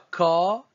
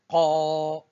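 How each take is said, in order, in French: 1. La consonne est un k ordinaire, articulé à l'avant. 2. La consonne est articulée au fond de la gorge. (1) "Ce n'est pas ka tel que c'est transcrit" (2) "c'est plutôt qa"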